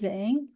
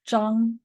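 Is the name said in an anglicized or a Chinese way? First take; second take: anglicized; Chinese. First: The name is said with an English-style pronunciation. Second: The name is said with its native Chinese pronunciation. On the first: The speaker calls it wrong. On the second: The speaker calls it right.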